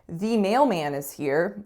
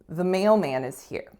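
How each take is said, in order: First: The word 'the' has a full, clear vowel. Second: The word 'the' has a reduced, weak vowel. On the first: The speaker calls it wrong. "I wouldn't say" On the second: The speaker calls it right. "I'd say"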